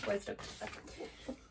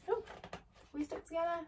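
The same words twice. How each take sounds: First: Whispered to herself. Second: Rising, quieter, puzzled; asking in surprise; surprised question. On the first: Reader answers her own question in a whisper. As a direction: breathe it out in a whisper. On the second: Reader breaks off, surprised, asking a question. Surprised aside mid-reading. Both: Real, not acted.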